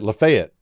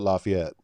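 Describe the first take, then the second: First: It is said the local Georgia way. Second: It is said the way outsiders say it. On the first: The speaker is from Georgia. "if you're from Georgia, you have to say it Lafayette" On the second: The speaker is from outside Georgia. "if you're from everywhere else, you would call it Lafayette"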